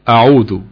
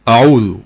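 The two takes are said the same way.

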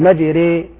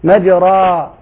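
First: The final vowel leans toward an ee sound. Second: The final vowel is a plain open a. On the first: "قلت مجري ري، فالألف قريبة من الياء" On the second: "ما قلت مجرى"

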